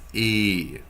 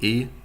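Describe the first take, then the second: First: The vowel is said long. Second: The vowel is said short. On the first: The speaker calls it right. "it's E, longer" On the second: The speaker calls it wrong. "It's not E"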